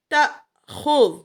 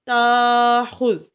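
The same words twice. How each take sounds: First: تاخذ slow and loud with a sharp glottal catch after ta; recited with hamza catch. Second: تاخذ with a long smooth aa and no glottal catch; wrong reading without hamza. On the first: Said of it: "حمزہ ہے تو ہم جھٹکا دے رہے ہیں". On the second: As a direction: drag تاخذ out very slowly, no break. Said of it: "اگر نہ ہوتا تو ہم نے پڑھنا تھا تاخذ". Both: Shown as a demonstration.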